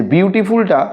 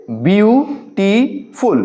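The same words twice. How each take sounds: First: Said in the usual way. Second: "বিউটিফুল" in three slow parts, bew - ti - ful, with pauses; split into syllables. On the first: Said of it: "কয়েকটা ভাগে ভাগ করা হয়েছে". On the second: Shown as a demonstration. Teacher shows pupils how words divide, "বিউটিফুল" split bew, ti, ful. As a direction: break "বিউটিফুল" slowly syllable by syllable. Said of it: "ভাগ ভাগ করে উচ্চারণগুলো".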